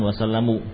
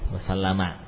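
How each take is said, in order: First: The word ends with a 'u' vowel. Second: The word ends with an 'a' vowel. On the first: The speaker calls it wrong. "yang betul bukan wasallamu" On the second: The speaker calls it right. "wasallama ini termasuk kata yang tidak berubah ya"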